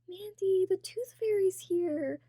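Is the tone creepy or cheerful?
cheerful. It is said in a cute, cheerful tone.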